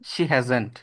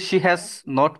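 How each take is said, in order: First: Has and not merge into one contracted word. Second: Has and not are said as separate words. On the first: The speaker calls it right. "আপনি বলবেন she হ্যাজেন্ট" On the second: The speaker calls it wrong. "She হ্যাজ নট বলবেন না"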